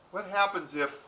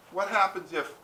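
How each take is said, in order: Both takes have the same delivery.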